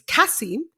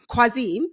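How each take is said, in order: First: The name begins with a plain K sound. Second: The name begins with a KW sound. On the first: The speaker calls it right. "It's Kasim. It's you don't pronounce the Q, not like that" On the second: The speaker calls it wrong. "You British people don't know how to pronounce names"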